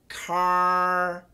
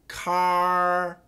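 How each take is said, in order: First: The R is made with the tongue further forward. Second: The R is made with the tongue slightly forward.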